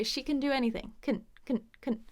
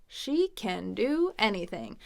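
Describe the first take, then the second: First: CAN reduced to a tiny "kn"; very quick can. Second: Slow, separate words with a full CAN; fully pronounced can. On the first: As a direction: snap through CAN with almost no vowel. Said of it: "Very quick". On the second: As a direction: space out every word, CAN unreduced. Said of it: "That might be a way, it's kinda weird". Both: Shown as a demonstration.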